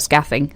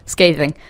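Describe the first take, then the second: First: The first vowel sounds like the vowel in cat. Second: The first vowel sounds like the vowel in day. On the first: The speaker calls it wrong. "not scathing" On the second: The speaker calls it right. "It's not said like cat with a th"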